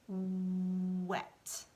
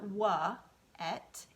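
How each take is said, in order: First: The W runs straight into the vowel, unbroken. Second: The W gets its own vowel, then a break. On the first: The speaker calls it right. "it's wet" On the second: The speaker calls it wrong. "It's not"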